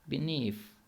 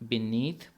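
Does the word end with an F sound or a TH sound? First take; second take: F sound; TH sound. First: The word ends with an F sound. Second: The word ends with a TH sound. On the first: "British accent में ... यहाँ एंड पर एफ़ की sound आएगी" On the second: "neutral accent में तो आप इसको बीनीथ पढ़ेंगे"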